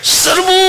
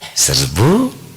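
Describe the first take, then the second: First: The word is said loudly and with force. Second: The word is said weakly and without force. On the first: The order gets the troops moving. The speaker calls it right. "baru bergerak" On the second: The order leaves the listeners confused. The speaker calls it wrong. "bingung ada"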